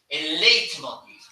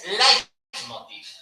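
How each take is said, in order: First: The first vowel is said like 'ei'. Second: The first vowel is said like 'ai'. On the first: The speaker calls it wrong. "un error de semicultismo" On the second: The speaker calls it right. "en alemán E I se lee A I"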